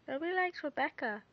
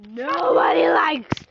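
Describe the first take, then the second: First: Said in the usual way. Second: Slow, loud drawn-out yell; drawn-out shouted taunt. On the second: Pretend. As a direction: yell it out, stretching the words. Teasing friend, blurts it out.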